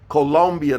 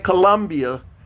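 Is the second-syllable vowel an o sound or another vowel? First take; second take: o sound; other vowel. First: The second syllable has a clear o vowel. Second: The second syllable has a vowel other than o. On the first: The speaker calls it right. "That's a O" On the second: The speaker calls it wrong. "Don't say Colombia"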